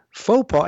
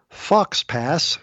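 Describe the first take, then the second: First: It sounds like foe pah, with silent consonants. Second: It sounds like fox pass, with sounded x and s. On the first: The speaker calls it right. "It's pronounced faux pas" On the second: The speaker calls it wrong. "that's exactly how I pronounced it"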